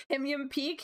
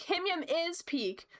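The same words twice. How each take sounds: First: "Him Yum peak?" as a rising, doubtful question; asking question. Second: "Him Yum is peak." stated slowly and higher, falling after "Yum"; firm statement. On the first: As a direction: ask "Him Yum peak?" with the tune going up on "Yum". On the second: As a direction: declare "Him Yum is peak." as settled fact, slow. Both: Shown as a demonstration.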